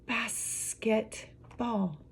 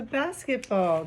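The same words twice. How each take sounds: First: Very slow, soft "Basketball" in pieces; syllable by syllable. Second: Said in the usual way. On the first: Shown as a demonstration. Teacher showing a multi-syllable word, slowly broken apart. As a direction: break "Basketball" into three spaced beats. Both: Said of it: "multi-syllable word".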